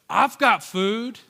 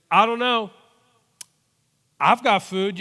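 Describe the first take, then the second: First: Put-on slow, higher little kid offering; slow sweet kid. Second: Put-on higher, louder eager child; sweet little kid. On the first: Boy offering his lunch to the adults, slow and sweet. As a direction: draw it out innocently like a seven-year-old. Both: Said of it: "like a sweet little kid".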